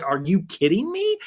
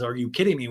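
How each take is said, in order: First: Higher, incredulous challenge; acted indignation. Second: Said in the usual way. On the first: Retold castmate confronting her accuser, indignant disbelief. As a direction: throw it back in disbelief. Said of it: "And Jen's like". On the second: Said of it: "And then a talking head, she says".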